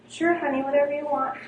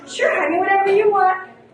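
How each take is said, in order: First: It sounds meekly compliant and agreeable. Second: It sounds resentful and passive-aggressive.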